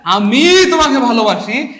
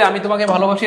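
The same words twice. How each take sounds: First: The word আমি is strongly emphasized. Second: It is said plainly with no special stress.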